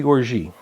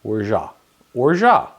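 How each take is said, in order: First: Orgeat said wrongly as "or-zhee"; orgeat misspoken with a "zhee" second syllable; mispronunciation. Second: Orgeat said as "or-zhah"; corrected pronunciation. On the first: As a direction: end orgeat on an "ee" sound. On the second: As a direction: end orgeat on an open "ah", silent T. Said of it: "That's right". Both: Real, not acted.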